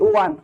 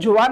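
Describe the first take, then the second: First: The name begins with a w sound. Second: The name begins with a j sound. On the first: "actual proper pronunciation ಅಂದ್ರೆ ವಾನ್" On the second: "ಜುವಾನ್ ಅಂತಾನು ಕರಿಬಹುದು"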